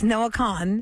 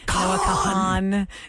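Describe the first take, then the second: First: The surname is said with one syllable. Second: The surname is said with two syllables. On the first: The speaker calls it right. "It's Noah Khan" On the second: The speaker calls it wrong. "a lot of people say Noah Kahan"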